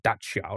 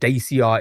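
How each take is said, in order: First: It is said the speaker's own local way. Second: It is said the American way. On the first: "like we pronounce it like Dacia" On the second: "Dacia is the um, uh, American side"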